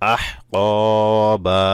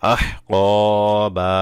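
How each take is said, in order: The two takes are said the same way.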